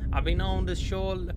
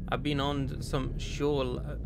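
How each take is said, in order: First: American accent. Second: Said in the usual way. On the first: Shown as a demonstration. Player resuming the soldier's letter, American accent. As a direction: pick the American accent back up. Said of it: "I don't know if this accent fits, but I'll continue". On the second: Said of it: "I don't know if this accent fits".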